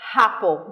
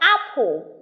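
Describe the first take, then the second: First: An h sound is added before the first vowel. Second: It starts directly with the vowel, no h sound. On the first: "Adding this, ... they say apple. That is the H factor" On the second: "instead of apple"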